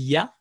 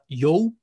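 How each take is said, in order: First: The syllable is said with an a vowel. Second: The syllable is said with an o vowel. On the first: The speaker calls it right. "on dit ya" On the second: The speaker calls it wrong. "on ne dit pas yo"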